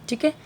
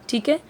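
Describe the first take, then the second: No difference in how they are said.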